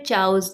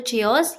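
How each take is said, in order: First: It begins with 'ch' and sounds like 'chows'. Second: It begins with 'chee' and ends in 'os'. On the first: "या फिर चाउस, जो भी बोलते हैं गलत ही बोलते हैं" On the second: "बहुत से लोग बोलते हैं या तो चियोस"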